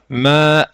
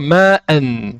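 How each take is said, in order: First: The word ends with a lengthened vowel, no n. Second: The word ends with a short vowel and n. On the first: The reciter stops on this word. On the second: The reciter continues without stopping on this word.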